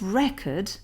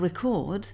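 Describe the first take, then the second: First: Record said REC-ord, as the noun; record with its opening syllable stressed; stress on first syllable. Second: Record said re-CORD, as the verb; record with its end syllable stressed; stress on second syllable. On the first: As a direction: put the weight on REC in record. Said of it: "re would be at the start of the bar". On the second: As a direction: put the weight on CORD in record. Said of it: "chord would be here". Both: Shown as a demonstration.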